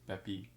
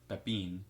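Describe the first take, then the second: First: The final N sound is left silent. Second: The final N sound is pronounced. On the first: The speaker calls it right. "just don't pronounce the last letter of the word" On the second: The speaker calls it wrong. "it's not Pepin"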